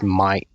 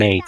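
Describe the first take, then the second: First: "mate" pronounced "mite", broad Australian vowel; Aussie "mate". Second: "mate" pronounced "mayt", rhyming with "late"; standard "mate". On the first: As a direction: say "mate" to rhyme with "kite". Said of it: "It's not mate, it's mate". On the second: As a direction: say "mate" with a plain "ay" vowel. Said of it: "It's not mate". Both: Shown as a demonstration.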